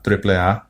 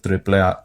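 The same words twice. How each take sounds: First: It is pronounced with Spanish sounds. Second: The same.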